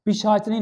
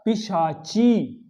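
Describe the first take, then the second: First: पिशाचिनी said quickly with च and नी run together; wrong form. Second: पिशाची slowly, long चा and ची; correct form. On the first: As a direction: rattle off पिशाचिनी, short i swallowed. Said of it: "नहीं होता". (पिशाचिनी का अशुद्ध, जल्दी वाला उच्चारण) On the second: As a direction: stretch out पिशाची for the class. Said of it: "अब शुद्ध बोले ना". (पिशाची का शुद्ध उच्चारण, खींचकर) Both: Shown as a demonstration.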